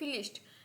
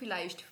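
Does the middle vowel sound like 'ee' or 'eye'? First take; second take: ee; eye. First: The middle vowel sounds like ee. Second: The middle vowel sounds like eye. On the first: The speaker calls it wrong. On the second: The speaker calls it right.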